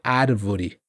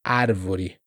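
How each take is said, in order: First: The R is a quick tap near the teeth. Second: The same.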